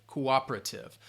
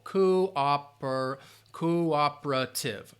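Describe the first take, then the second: First: Said in the usual way. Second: "cooperative" slowly, syllable by syllable, stress on OP; broken into syllables. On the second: Shown as a demonstration. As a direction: sound out co-OP-er-a-tive for learners. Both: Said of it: "stress is on that second syllable".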